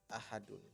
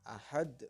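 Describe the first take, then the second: First: It ends with a final un sound. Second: It ends on a bounced consonant with no vowel. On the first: The word is read in its original full form. The speaker calls it wrong. "bukan ahadun" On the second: The word is read with a pause at the end of the verse. The speaker calls it right. "karena hukumnya adalah qalqalah kubra maka dibacanya ahad"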